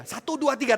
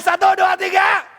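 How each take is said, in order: First: Said in the usual way. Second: High, shouted count-in; aba-aba berteriak. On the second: Real, not acted. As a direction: shout the count to rouse them. Counts louder after "kurang keras. (hitungan diteriakkan keras)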